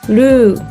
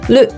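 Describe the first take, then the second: First: The vowel is drawn out long. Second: The vowel is kept short. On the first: The speaker calls it wrong. "Don't say ru" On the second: The speaker calls it right. "It's short"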